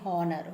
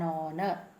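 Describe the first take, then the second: First: The word begins with an audible H sound. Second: The word begins directly with a vowel sound. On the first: The speaker calls it wrong. "I am not saying honor" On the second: The speaker calls it right. "I am saying an honor"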